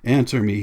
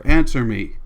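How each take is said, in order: First: Mildly raised demand; restrained cry; cried demand. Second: Loud, hard command; explosive order; shouting. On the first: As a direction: demand an answer firmly. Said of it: "he cried". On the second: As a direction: shout the demand forcefully. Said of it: "shouted again at her". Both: A narrator's reading.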